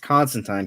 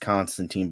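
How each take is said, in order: First: The name is said the European way. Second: The name is said the American way. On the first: The speaker calls it right. "that's how it's in pronounced in Europe" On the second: The speaker calls it wrong. "the American pronunciation is Constantine"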